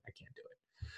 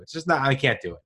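First: Hushed, voiceless giving up; whispered. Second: Said in the usual way. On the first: Real, not acted. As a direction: whisper the same line to yourself. Repeats the line hushed.

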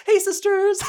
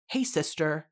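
First: Very high, loud sing-song YouTuber greeting; James Charles impression. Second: Said in the usual way. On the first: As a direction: squeal it out like a beauty vlogger greeting fans. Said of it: "Oh my God, James Charles". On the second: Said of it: "I would never refer to my sister as sister".

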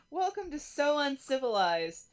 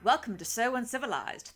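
First: Said in the usual way. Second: "Welcome to So Uncivilized" in a lightly formal Obi-Wan voice. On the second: Acted. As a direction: greet them as a stiff, uptight Jedi host. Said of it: "I'm going to use that voice".

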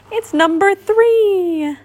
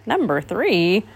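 First: High, drawn-out delighted cry; happy cry. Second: Slow, doubtful muttered question; displeased mutter. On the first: Pooh recognising his honey pot, crying happily. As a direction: stretch it out joyfully, way up high. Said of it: "Pooh cried happily". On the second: Owl puzzled by Pooh's happy news, muttering. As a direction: mutter it back slowly, unimpressed. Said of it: "muttered Owl, frowning". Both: A narrator's reading.

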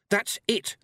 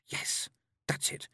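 First: High, louder cry of realisation; excited shout. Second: Whispered, slow dawning; hushed realisation. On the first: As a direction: shout out that you've got it. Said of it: "shouted Tiffany". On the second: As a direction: whisper it as the answer lands. Tiffany takes in the answer. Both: A narrator's reading.

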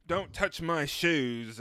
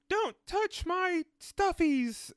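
First: Slightly raised, slow mimicry. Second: High, slow, drawn-out little squeal. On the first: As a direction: draw it out, lightly mimicking a pop star. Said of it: "and [name]'s like". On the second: Retold or imitated. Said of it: "like, [name]'s like".

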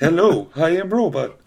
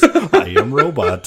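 First: Toy robot voice. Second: Slow, loud robot voice, laughing; toy robot voice. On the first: Pretend. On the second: Retold or imitated. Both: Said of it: "it was the voice".

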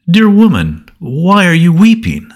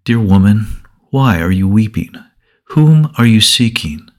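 First: Angels' question. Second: Jesus gently asking Mary why she weeps; gentle voice. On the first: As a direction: lift it high like a heavenly messenger. Angels question the weeping Mary. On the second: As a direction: speak kindly to a grieving woman. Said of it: "another gentle voice said". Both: A narrator's reading.

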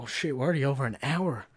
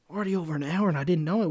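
First: Said in the usual way. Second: Surprised. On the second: Real, not acted. Realises the time is up.

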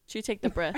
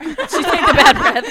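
First: Said in the usual way. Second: Laughing it out, louder; cracking up through the line. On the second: Real, not acted. Repeats the answer laughing.

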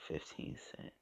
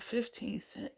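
First: Breathy whisper of the price; whispering to herself over the package. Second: Pitched up high in shock; retelling a bargain in shock; stunned disbelief. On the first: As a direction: hush it to yourself in wonder. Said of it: "I looked at the package again and I said". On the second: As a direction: say the price like you can't believe it. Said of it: "I couldn't believe it". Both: Retold or imitated.

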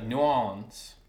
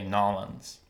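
First: New Orleans slowly, slurred to "new AW-lunz"; Wilmington pronunciation. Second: Nolans in two syllables, NAW-lunz; local pronunciation. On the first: Showing a friend Wilmington's way, r-less New Orleans. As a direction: say New Orleans drawn out, r dropped. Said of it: "people from Wilmington would say". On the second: Showing a friend how locals say it, two-syllable Nolans. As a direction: say Nolans with no "new", run together. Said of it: "people from there would say". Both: Shown as a demonstration.

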